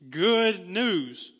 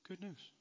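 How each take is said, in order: First: It is said with lively, excited energy. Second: It is said flatly, without any enthusiasm. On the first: The news is truly wonderful. The speaker calls it right. "It's awesome news" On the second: The news is merely okay. The speaker calls it wrong. "not good news"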